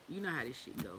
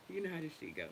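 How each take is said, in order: Both takes have the same delivery.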